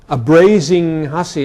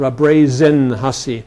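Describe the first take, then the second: First: The first word ends in an 'ing' sound. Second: The first word ends in an 'in' sound.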